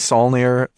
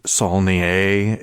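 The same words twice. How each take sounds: First: The name is said with an English pronunciation. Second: The name is said with a French pronunciation. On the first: "It's probably Saulnier" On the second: "It could be Saulnier if he's uh, French"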